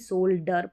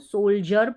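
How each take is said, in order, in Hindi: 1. बीच का व्यंजन d ध्वनि है। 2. बीच का व्यंजन j ध्वनि है। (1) "ना कि सोल्डर पढ़ते हैं" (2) "इसको सोल्जर पढ़ते हैं"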